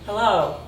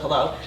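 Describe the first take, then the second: First: The vowels are stretched out longer. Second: The vowels are short and clipped. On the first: "you're elongating vowels" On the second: "instead of"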